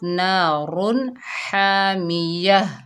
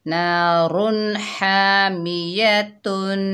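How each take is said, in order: First: The last word ends with a soft 'h'. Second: The last word ends with a nasal 'tun'. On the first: The reader stops at the end of the verse. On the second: The reading continues into the next word.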